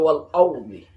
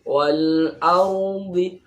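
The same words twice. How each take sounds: First: The first vowel of ardi sounds thick and dark. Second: The first vowel of ardi sounds thin and light. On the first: The speaker calls it wrong. "tidak boleh wal ardi" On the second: The speaker calls it right. "A-nya ini tipis"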